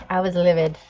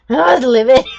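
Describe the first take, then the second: First: Said in the usual way. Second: "livid" belted out, much louder and higher; livid shout. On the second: Shown as a demonstration. Telling viewers how mad she was, shouting "I was livid". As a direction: shout it to show the fury.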